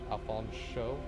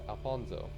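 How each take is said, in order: First: The middle consonant is a sh sound. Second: The middle consonant is a plain s sound. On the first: The speaker calls it right. "Pronouncing the sh sound is very important" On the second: The speaker calls it wrong. "He gets offended if you pronounce it as"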